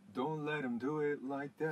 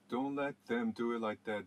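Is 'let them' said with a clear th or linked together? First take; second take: linked; clear th. First: The th in 'them' blends into 'let'. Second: The th in 'them' is said clearly and separately. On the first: The speaker calls it right. "Let にアパーシャフィーをかけて" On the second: The speaker calls it wrong. "ではなくて"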